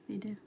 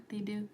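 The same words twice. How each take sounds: The two takes are said the same way.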